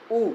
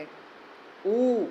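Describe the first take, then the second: First: उ said short and quick, in a single beat. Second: उ held steady for two beats; long u. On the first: Teacher showing students the one-beat उ. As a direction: clip उ to one beat only. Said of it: "अब ह्रस्व को आप ऐसे समझो". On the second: Teacher contrasting the long उ with the short one for the class. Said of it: "दीर्घ उकार को उच्चारण करने में". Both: Shown as a demonstration.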